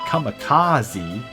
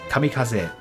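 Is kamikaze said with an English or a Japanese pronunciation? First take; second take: English; Japanese. First: It is said with an English-style pronunciation. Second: It is said with a Japanese-style pronunciation. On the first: The speaker calls it wrong. "as they expect you to pronounce it" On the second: The speaker calls it right. "it should be kamikaze"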